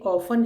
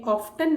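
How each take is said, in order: First: ऑफन with silent T; right way. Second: ऑफ्टन with the T sounded; wrong way. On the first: Teacher shows children the right way: ऑफन, T silent. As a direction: say ऑफन without the T, as the correct version. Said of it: "ये ऑफन है". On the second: Teacher shows children the wrong way: ऑफ्टन with T spoken. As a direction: say ऑफ्टन pronouncing the T, as the mistake. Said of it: "ऑफ्टन नहीं पढ़ते". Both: Shown as a demonstration.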